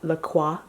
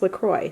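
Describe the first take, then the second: First: The name is pronounced the French way. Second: The name is pronounced the way the brand says it. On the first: "which would be the correct French pronunciation" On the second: "the company has actually said that it's pronounced LaCroix"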